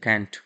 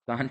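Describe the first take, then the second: First: The vowel is a flat 'a' as in cat. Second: The vowel is a long open 'ah' sound. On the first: This is the original pronunciation. "Original pronunciation होता है कैंट।" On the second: This is how people say it in India. "कांट हम लोग India में बोलते हैं"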